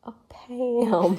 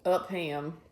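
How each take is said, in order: First: Upham with a full "ham" ending, laughing. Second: Upham with a short, swallowed second syllable. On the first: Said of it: "The B is silent". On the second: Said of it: "Upham or Upham". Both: Shown as a demonstration.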